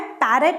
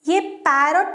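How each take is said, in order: First: The second syllable has a reduced schwa vowel. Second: The second syllable has a full 'o' vowel. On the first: The speaker calls it right. "यहाँ हमें ओ को अ पढ़ना" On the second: The speaker calls it wrong. "नहीं है"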